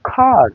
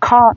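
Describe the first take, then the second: First: The final r sound is pronounced. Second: The final r sound is dropped. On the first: "আমেরিকানরা কিন্তু আর এর উচ্চারণ করছে" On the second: "ব্রিটিশরা কিন্তু ... ওরা কিন্তু আর এর উচ্চারণ করছে না"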